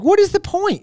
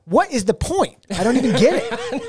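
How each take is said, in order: First: High-pitched, incredulous protest; mock exasperation. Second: Raised pitch, emphatic repeat of the protest; mock exasperation. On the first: Fan protesting a remake with no Sebastian, exasperated. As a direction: throw it out in exaggerated disbelief. Hypothetical outraged reaction to remake. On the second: Fan still not getting a Sebastian-less remake, exasperated. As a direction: hammer home the baffled complaint.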